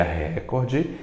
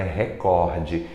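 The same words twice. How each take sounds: First: Recorde mispronounced with stress on RE; stress on first syllable. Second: Recorde with stress on COR; stress on middle syllable. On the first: Teacher showing what an accent would cause, stress on RE in recorde. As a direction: say RÉ-cor-de, first syllable strongest. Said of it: "não possui um acento no ré". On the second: Teacher giving the true form to class, stress on COR in recorde. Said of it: "na verdade ela é recorde". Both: Shown as a demonstration.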